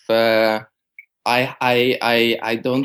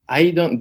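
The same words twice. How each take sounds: First: It is said in a soft, gentle tone. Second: It is said in a blunt, curt tone.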